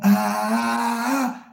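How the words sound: It is said with an airy, breathy voice.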